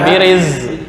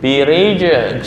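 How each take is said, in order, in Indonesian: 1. Konsonan setelah 'bi-ri' adalah bunyi 'z'. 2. Konsonan setelah 'bi-ri' adalah bunyi 'j'. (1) "bukan biriz" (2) "birij jim jim"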